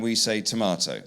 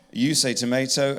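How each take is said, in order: First: "tomato" said the British way, middle vowel as in "ma"; "tomato" as tuh-MAH-toh, British style; British pronunciation. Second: "tomato" said the American way, middle vowel as in "may"; "tomato" as tuh-MAY-toh, American style; American pronunciation. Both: Shown as a demonstration.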